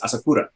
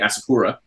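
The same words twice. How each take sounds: First: The name is said with a Japanese accent. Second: The name is said with a Canadian accent.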